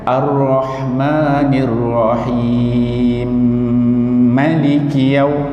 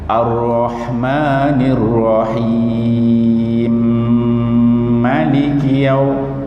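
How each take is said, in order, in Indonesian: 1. Vokal dalam 'Rahim' dibaca sebentar. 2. Vokal dalam 'Rahim' dibaca agak panjang. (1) "Dia yang dua harakat" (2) "Kalau empat harakat"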